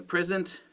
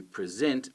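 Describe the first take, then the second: First: "present" as a noun, PRES-ent; front-stress "present" as PRES-ent; stress on first syllable. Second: "present" as a verb, pre-SENT; stress on second syllable. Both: Shown as a demonstration.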